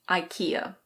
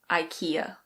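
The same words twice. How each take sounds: First: It is said with an English pronunciation. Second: It is said with an English pronunciation.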